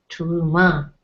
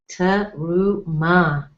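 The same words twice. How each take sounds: First: Said in the usual way. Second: "Teruma" said slowly with every syllable sounded, stress at the end; slow careful spelling-out. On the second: Shown as a demonstration. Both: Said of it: "the emphasis would be ... on the last syllable".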